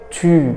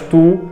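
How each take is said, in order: First: The vowel is a rounded front u sound. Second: The vowel is a back oo sound. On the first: The speaker calls it right. "يبقى انت بتنطق صح" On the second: The speaker calls it wrong. "اسمهاش تو"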